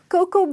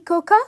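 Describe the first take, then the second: First: The word ends on the o sound alone. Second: An extra a sound is pronounced at the end. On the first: The speaker calls it right. "A is silent and the pronunciation is co, co" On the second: The speaker calls it wrong. "is it really coca? No"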